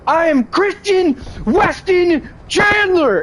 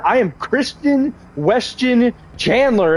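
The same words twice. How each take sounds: First: High, slow, drawn-out mock declaration; imitating Chris Chan. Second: Higher, slow, lightly voiced mock announcement; a gentler retake of his slow self-introduction; lighter Chris Chan imitation. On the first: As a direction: belt his name out in a much higher, slowed voice. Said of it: "All I heard was". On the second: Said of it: "and I heard".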